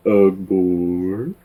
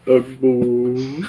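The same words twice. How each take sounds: First: Lightly voiced old dude; mild old-man grunt; old man grumble. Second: Put-on a touch higher old-guy sigh; lightly voiced old dude, brighter take; old man grumble. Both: Shown as a demonstration. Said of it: "I like playing older dudes".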